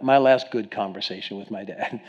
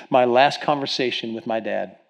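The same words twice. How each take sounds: First: "good" picked out as a correction; qualify it by leaning on "good"; stress on GOOD. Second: Said in the usual way. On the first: Real, not acted. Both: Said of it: "let me qualify that".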